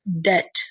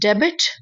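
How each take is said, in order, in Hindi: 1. 'b' की आवाज़ silent है। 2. 'b' की आवाज़ बोली जाती है। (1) "इसमें बी जो है वो साइलेंट हो जाएगा" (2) "डेबिट नहीं है"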